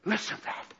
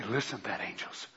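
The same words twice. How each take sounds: First: A breathless whisper of wonder; God whispering in awe. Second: Very soft and low, almost under the breath; God hushed in awe. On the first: God whispering to the angels about the prayer. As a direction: whisper it as if not to break the moment. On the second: God marveling softly to the angels, hushed. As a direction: murmur it in quiet wonder. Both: Acted. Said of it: "and say".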